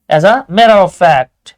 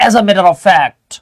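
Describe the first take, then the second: First: As a matter of fact, spoken very slowly and louder, each word weighted; emphatic phrase. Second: Said in the usual way. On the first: Shown as a demonstration. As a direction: lean hard on as a matter of fact, drawing it out. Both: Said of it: "যখন বেশি জোর দিবেন".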